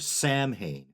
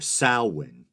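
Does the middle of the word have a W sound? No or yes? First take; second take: no; yes. First: The middle is said without a W sound. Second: The middle is said with a W sound. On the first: The speaker calls it wrong. "often pronounced Samhain or Samhain, which is incorrect" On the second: The speaker calls it right. "generally pronounced with a W sound"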